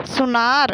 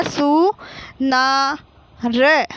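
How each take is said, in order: First: Said in the usual way. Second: Slow सु, ना, र with pauses between; teacher holding each syllable of सुनार apart. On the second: Shown as a demonstration. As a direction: sound out सु ना र piece by piece. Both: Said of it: "तो क्या हो गया?".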